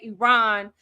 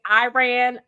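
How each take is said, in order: First: It is said with a posh British-sounding accent. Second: It is said with a broad Texan country accent. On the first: The speaker sounds overly fancy. "it sounds too fancy, like them people over there in B B C" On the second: The speaker sounds rural and unsophisticated. "I will sound too Texan. Like it would just sound too country"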